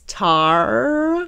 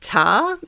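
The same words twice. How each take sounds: First: The word is said without an Australian accent. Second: The word is said with an Australian accent. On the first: The speaker calls it right. "I have to say it like that" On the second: The speaker calls it wrong. "if you say it in the Australian way"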